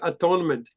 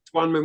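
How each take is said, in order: First: The word is split into at, one, ment. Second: The word is said smoothly as one unit. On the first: It means becoming one with yourself. The speaker calls it right. "we say atonement" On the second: It is the ordinary word for making amends. The speaker calls it wrong. "we don't say atonement"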